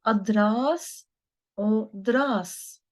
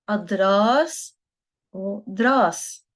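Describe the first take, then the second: The two takes are said the same way.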